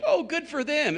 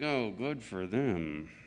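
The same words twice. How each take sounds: First: It sounds sincerely happy for them. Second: It sounds sarcastic and resentful.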